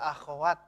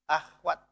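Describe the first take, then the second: First: The kh sound is followed by an a vowel. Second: The kh sound runs straight into the w. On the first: The speaker calls it right. "Yang betul itu akhwat ya" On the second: The speaker calls it wrong. "bukan akhwat"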